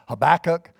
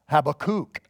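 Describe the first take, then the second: First: The stress falls before the last syllable. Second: The stress falls on the last syllable. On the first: The speaker calls it wrong. "I used to always pronounce it Habakkuk or Habakkuk" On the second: The speaker calls it right. "it's actually Habakkuk. The emphasis and the is on kook"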